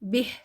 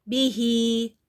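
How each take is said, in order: First: The word ends on a bare h consonant. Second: The word ends with a long i vowel. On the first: The reading stops on this word. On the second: The reading continues into the next words.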